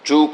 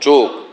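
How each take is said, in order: First: The vowel is closed, ending in a k sound. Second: The vowel is open, ending in a kh sound. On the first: The speaker calls it wrong. "Sylheti উচ্চারণ না" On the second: The speaker calls it right. "Bangladeshi বাঙালি উচ্চারণ করো"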